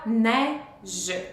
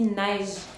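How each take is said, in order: First: The final e is sounded, giving two syllables. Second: The final e is silent, giving one syllable. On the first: This is how the word looks in writing. "on voit deux syllabes" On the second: This is how the word is actually spoken. "on dit seulement une syllabe"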